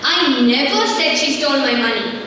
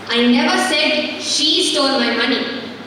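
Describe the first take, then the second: First: The stress falls on the word "never". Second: The stress falls on the word "she". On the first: "confirming the fact that she did not steal it" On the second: "She didn't"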